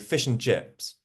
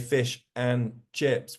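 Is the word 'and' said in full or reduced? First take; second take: reduced; full. First: The word 'and' is reduced to a weak form. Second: The word 'and' is said in full. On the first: The speaker calls it right. "We say / Weak forms" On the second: The speaker calls it wrong. "We don't say"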